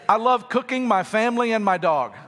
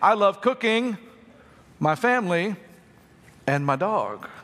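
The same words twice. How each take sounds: First: It is said straight through with no pauses. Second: There are pauses after cooking and after family. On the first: The speaker cooks the family and the dog. The speaker calls it wrong. "that's weird, a little macabre" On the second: The speaker loves three separate things. The speaker calls it right. "if you put the commas where they belong"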